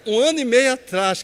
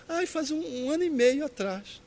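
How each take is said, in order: First: Loud, higher echo in disbelief; retold disbelief. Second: Higher-pitched imitation of a disheartened caller; mulher desanimada, imitada. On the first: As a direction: throw the words back loudly, incredulous. Repeats her answer in disbelief. (repetição alta e incrédula) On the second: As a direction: voice her reluctant answer, pitched up. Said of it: "ela foi ficando meio desanimada". (voz aguda imitando uma mulher desanimada)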